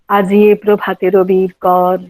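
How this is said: It is said at a low starting pitch.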